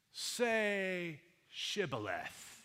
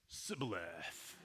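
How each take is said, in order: First: "Shibboleth" with a clear sh, slow and demanding; drawn-out "Shibboleth", sh sound stressed; correct Shibboleth. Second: "Sibboleth" with a plain s, lower and softer; wrong Sibboleth. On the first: Gileadite guard demanding the password, "Shibboleth" with sh. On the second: Ephraimite fugitive failing the test, saying "Sibboleth" with s. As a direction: mumble "Sibboleth", s instead of sh. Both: Retold or imitated. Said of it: "'cause he couldn't pronounce it right".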